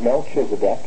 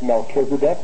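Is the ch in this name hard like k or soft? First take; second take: soft; hard. First: The ch is pronounced soft, as in church. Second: The ch is pronounced hard, as a k. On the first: The speaker calls it wrong. "not Melchizedek" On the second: The speaker calls it right. "it is pronounced as a K"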